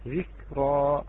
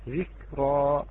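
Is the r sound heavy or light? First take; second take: heavy; heavy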